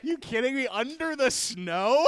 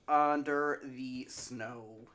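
First: Higher, louder, laughing disbelief; incredulous. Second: Drawn-out deadpan; very slow. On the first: Real, not acted. Host repeating cohost's answer in laughing disbelief. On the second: Pretend. Cohost answering where to find them, very slowly. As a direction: stretch every word slowly. Absurd dodged plug answer.

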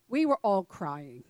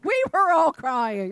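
First: Said in the usual way. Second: "We were all crying" high, loud and drawn out; emphatic repeat. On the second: Real, not acted. Mother confessing to the audience, loud emphatic "We were all crying".

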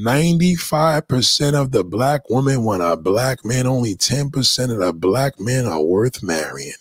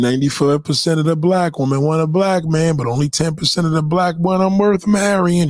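First: Deliberate restatement. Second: Said in the usual way. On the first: Real, not acted. Deliberate restatement after "listen.

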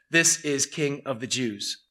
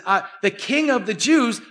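First: Mocking. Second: Said in the usual way. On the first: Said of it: "This was a mockery". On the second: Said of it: "when Jesus says".

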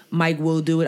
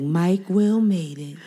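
First: Said in the usual way. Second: Slow, drawn-out words; slow drawn-out mishearing. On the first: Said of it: "he says, like". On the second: Retold or imitated. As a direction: stretch each word out slowly. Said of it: "I'd be like".

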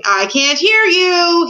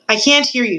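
First: High, loud, slow stretched shout; drawn-out shout. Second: Said in the usual way. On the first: A narrator's reading. King blocking out the mouse, shouting in long drawn words. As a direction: shout it long to drown out the speaker. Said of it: "he stopped to shout". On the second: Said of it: "said the king".

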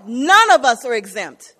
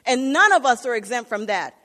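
First: Much louder, driving the repeat home; emphatic preaching. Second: Said in the usual way. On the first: Acted. Preacher repeats to the congregation that none are exempt, loud. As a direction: hit it harder the second time.

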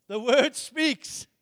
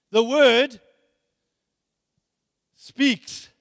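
First: The word speaks, drawn out slowly word by word; slow it right down to land it; deliberate slow emphasis; slow emphatic. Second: Said in the usual way. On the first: Shown as a demonstration. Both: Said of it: "Let me say it like this".

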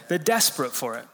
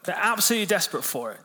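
First: Said in the usual way. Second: "absolutely" pushed higher and faster; stress on absolutely. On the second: Real, not acted. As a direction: lean hard on "absolutely" for emphasis.

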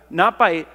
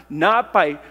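No difference in how they are said.

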